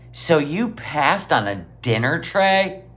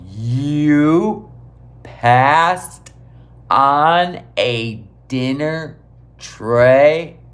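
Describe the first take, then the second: First: It is said at normal speed. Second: It is said very slowly.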